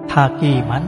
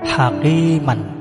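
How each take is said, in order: First: The word ends with a short vowel and n. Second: The word ends with a short vowel and n.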